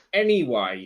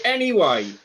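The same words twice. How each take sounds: First: Low flat anyway. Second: "anyway" starts high and swoops down; high falling anyway. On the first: Co-host repeats "anyway" low and firm to move on. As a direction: drop "anyway" down low and matter-of-fact. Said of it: "It, anyway". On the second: Co-host restarts her point with a high swooping "anyway". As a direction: toss off "anyway" with a big high fall. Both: Shown as a demonstration.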